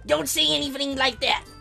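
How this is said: It is said in a put-on deep voice.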